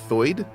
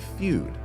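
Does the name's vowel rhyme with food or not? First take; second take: not food; food. First: The vowel does not rhyme with food. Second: The vowel rhymes with food.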